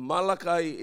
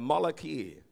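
First: Malachi said the English way, MAL-a-kai; Malachi with a final kai sound; English pronunciation. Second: Malachi said ma-LA-ki, ending in ki; Malachi spoken like Tagalog malaki; Hebrew pronunciation. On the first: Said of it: "Yung Malachi is an English word". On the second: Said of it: "Pero sa Hebrew, ang tawag po dyan is Malachi". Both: Shown as a demonstration.

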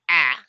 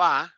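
First: "A" as English a in cat; second A sound. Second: "A" as open relaxed ah; first A sound. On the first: Teacher recapping three sounds, English cat vowel. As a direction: push "A" out as throaty cat vowel. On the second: Teacher recapping three sounds, open ah vowel. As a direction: say "A" as a held ah. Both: Shown as a demonstration. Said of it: "ya tenemos tres sonidos".

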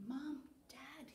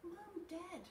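First: Put-on hushed child's whisper to sleeping parents. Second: Put-on high-pitched child calling Mum and Dad; little kid's urgent call; calling for parents. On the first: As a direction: whisper it as if waking someone gently. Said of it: "he whispered". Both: A narrator's reading.

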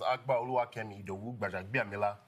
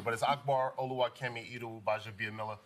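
First: "Akbar Oluwakemi Idowu Bajabiamila" with Nigerian accent, pure open vowels; "Oluwakemi" in Nigerian pronunciation, lower and even. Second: "Akbar Oluwakemi Idowu Bajabiamila" with American vowels and r sounds; "Bajabiamila" said as "bah-zhuh-bee-uh-MIH-luh" in American English; plain American pronunciation. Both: Shown as a demonstration. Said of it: "With the Nigerian accent".

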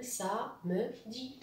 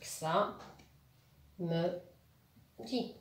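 First: "ça me dit" in three light beats; syllable by syllable. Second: "ça me dit" as three isolated beats; long pauses between each syllable of "ça me dit"; split into syllables. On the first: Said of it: "Trois syllabes maintenant". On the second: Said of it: "Un, deux, trois". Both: Shown as a demonstration.

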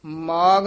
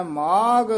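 First: ਮਾਗ with a plain g, shown as wrong; the mistaken ਮਾਗ, hard g; teacher shows the wrong ਮਾਗ with g. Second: ਮਾਗ ending in an aspirated gh; teacher models ਮਾਗ with ਘ sound. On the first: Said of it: "ਮਾਗ ਨਹੀਂ ਕਹਿ ਦੇਣਾ". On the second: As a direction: say ਮਾਗ as maagh with breathy gh. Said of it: "ਘੱਗਾ ਲਾ ਕੇ ਉਚਾਰਨ ਕਰਨਾ ਹੈ।". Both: Shown as a demonstration.

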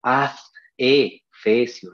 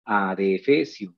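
First: Very slow "adefesio" as AD, E, FESIO; wrong split. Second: Lower, slow "adefesio" as a-de-fesio; normal pronunciation. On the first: Teacher asks "¿acaso decimos?", "adefesio" wrongly chopped ad-e-fesio. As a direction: split "adefesio" after the D, long gaps between pieces. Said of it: "¿Acaso decimos". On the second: Teacher corrects for pupils, "adefesio" normally joined, unhurried. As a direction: join the D to the E in "adefesio". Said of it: "normal, tal como pronunciamos". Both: Shown as a demonstration.

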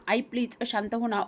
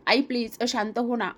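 First: Softer tearful plea. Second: Pleading. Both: Acted. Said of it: "Praju रडायला लागते".

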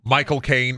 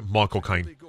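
First: Said in the usual way. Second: Low, soft Cockney impression; Michael Caine. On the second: Showing the easy impression, low Cockney accent. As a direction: say it in a lowered Cockney voice. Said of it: "Michael Caine's easy. You just".

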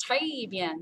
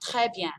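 First: "très bien" with très as "tray"; "très bien", the common learner's mistake, tray; mistaken très. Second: "très bien" with open eh in très; "très bien", très short and open; correct très bien. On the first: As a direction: say "très bien" with a closed ay vowel. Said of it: "they think it's très bien". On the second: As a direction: say "très bien" as "treh byan". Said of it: "it's très". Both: Shown as a demonstration.

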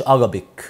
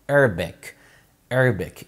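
First: "Arabic" with a full a in the middle, a-RA-bik; wrong Arabic. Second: "Arabic" as ER-bek, first vowel bent toward e; softened first A. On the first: Teacher showing the mistake, "Arabic" as a-ra-bik. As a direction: say "Arabic" with open Egyptian a sounds. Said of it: "ما اسمهاش Arabic". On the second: Teacher correcting mothers, "Arabic" as snooty ER-bek. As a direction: squeeze "Arabic" into falling ER-bek. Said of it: "اكسري الاي شوية". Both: Shown as a demonstration.

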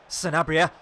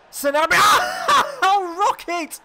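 First: Louder urgent call of the name; willing the striker on; rising excitement. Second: Very high, very loud drawn-out scream of the name; ecstatic shout. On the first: Gamer urging his striker toward goal, eager call. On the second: Gamer as his striker scores, ecstatic screaming. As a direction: scream it with pure joy, laugh breaking in. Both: Real, not acted.

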